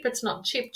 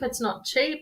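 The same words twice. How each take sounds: First: "chip" with a short i, as in chip; "chip" quick, with a short i, like a bird call; chip, not cheap. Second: "cheap" with a long ee, as in cheap; "cheap" stretched into a long ee; not cheap. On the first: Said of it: "chip, like it's a bird". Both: Shown as a demonstration.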